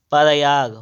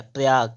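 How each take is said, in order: First: "प्रयाग" loud, as pa-ra-yaag; wrong split cluster. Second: "प्रयाग" as prayaag, tight pr; correct cluster. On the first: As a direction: break "प्रयाग" open with an extra vowel. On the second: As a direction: join p and r in "प्रयाग". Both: Shown as a demonstration. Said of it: "प्रयाग नहीं होता है".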